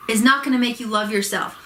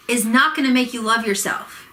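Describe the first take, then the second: No difference in how they are said.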